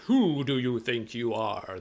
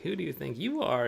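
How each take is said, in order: First: It sounds powerful and angry, like a wizard. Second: It sounds seductive and flirtatious, like a sexy woman.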